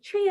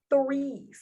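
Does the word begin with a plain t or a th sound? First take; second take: plain t; th. First: The word begins with a plain t sound. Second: The word begins with a th sound. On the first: This is how the parents say it. The speaker calls it wrong. "Like little four-year-old me" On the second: This is how Americans say it. The speaker calls it right. "it's three, say three, like that"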